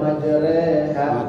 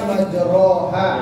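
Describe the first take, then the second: First: The vowel after r is a plain e. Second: The vowel after r is a plain o. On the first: This is the simplified reading. "kita gampangin aja, majreha gitu ya. Itu pun tidak salah" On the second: This is how the word is written. "Harusnya kan majroha"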